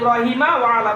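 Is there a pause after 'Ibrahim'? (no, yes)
no. No pause; Ibrahima runs straight into wa ala. "অক্ষ যদি না করি"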